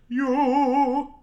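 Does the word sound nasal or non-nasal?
non-nasal. The word is placed back without nasal resonance. "instead of you"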